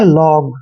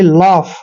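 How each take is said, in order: First: The word ends with a g sound. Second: The word ends with an f sound. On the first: The speaker calls it wrong. "ऐसे आपने नहीं पढ़ना है, ये गलत तरीका है" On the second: The speaker calls it right. "ओ यू जी एच का उच्चारण आता है वहां पर हम इसको फ पढ़ेंगे"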